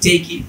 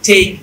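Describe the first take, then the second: First: The word ends with an extra vowel sound. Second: The word ends on the k consonant. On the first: The speaker calls it wrong. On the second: The speaker calls it right.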